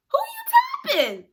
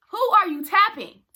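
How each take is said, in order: First: Very high, squeaky challenge; mock indignant squeal. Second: Loud, high confrontational question; indignant challenge. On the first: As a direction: squeal it in comic outrage. Indignant reaction to being tapped. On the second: Retold or imitated. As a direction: call them out loudly. Repeats the indignant challenge, louder.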